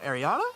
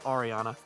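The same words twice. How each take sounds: First: The name is said the popular American way. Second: The name is said the traditional European way. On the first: This is the version popularized by a famous singer. "it's been popularized by [name]. So that's probably why a lot of people go Ariana" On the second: This is the other, traditional version of the name. "instead of [name]"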